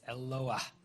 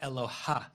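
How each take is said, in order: First: The h sound comes after the final vowel. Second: The h sound comes before the final vowel. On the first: The speaker calls it right. "where the hey comes after the vowel, not before the vowel" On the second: The speaker calls it wrong. "It's not Eloha"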